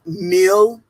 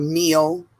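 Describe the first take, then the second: First: "meal" said like mill; short i in "meal", mill; Southern meal. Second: Said in the usual way. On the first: Shown as a demonstration. Friend showing how Southerners say meal, like mill. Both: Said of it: "instead of meal".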